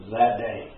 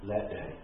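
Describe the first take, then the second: First: Said in the usual way. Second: Much softer repeat of "That day", almost breathed; soft echo of "That day" for weight; hushed echo. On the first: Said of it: "preacher repeats for weight". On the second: Shown as a demonstration. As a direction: let "That day" sink to a hush. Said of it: "hushed echo of the phrase".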